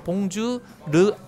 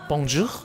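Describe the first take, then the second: First: The word ends with a light flapped r. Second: The word ends with a rasping, scraped h. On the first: The speaker calls it wrong. "봉주 르 절대 아니고요" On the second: The speaker calls it right. "약간 긁어주면서 봉주 봉주 이렇게 해줘야 된다고 합니다"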